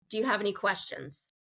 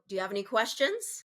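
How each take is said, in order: First: The pitch falls at the end of the question. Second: The pitch rises at the end of the question. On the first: It sounds commanding and harsh. The speaker calls it wrong. "it's falling at the end of yes or no questions instead of rising" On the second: It sounds friendly and personable. The speaker calls it right. "that rising intonation creates more of a feeling of friendliness"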